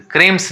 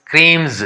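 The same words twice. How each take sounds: First: क्रीम्स with a hissed s at the end; wrong S ending. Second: क्रीम्स with a buzzed z at the end; voiced Z ending. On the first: Teacher shows the reading to avoid, क्रीम्स with final s. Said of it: "नहीं पढ़ा जाएगा". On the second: Teacher reads the word for learners, क्रीम्स with final z. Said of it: "क्रीम्स नहीं पढ़ा जाएगा". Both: Shown as a demonstration.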